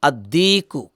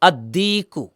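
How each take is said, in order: No difference in how they are said.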